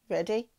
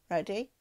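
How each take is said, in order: Both takes have the same delivery.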